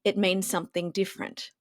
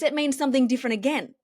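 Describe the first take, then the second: First: Low, unhurried delivery; deeper and slower. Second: Brighter, quicker and smiling; higher with a smile. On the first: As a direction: drop the pitch and slow right down. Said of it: "if you say the same thing in a deeper tone and slower". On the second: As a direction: lift the voice and smile through it. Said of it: "with a bit of a higher tone and a smile on my face". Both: Shown as a demonstration.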